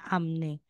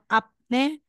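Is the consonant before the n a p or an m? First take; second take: m; p. First: An m sound comes before the n. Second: A p sound comes before the n. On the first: The speaker calls it right. "magiging amne" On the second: The speaker calls it wrong. "Instead na sasabihin mo apne"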